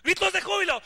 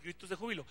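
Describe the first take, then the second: First: Shouted announcement of gritos de júbilo; louder call to whoop. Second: Quiet aside. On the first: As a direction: call it out to the crowd. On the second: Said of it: "Eso también lo inventó [name]". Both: Shown as a demonstration.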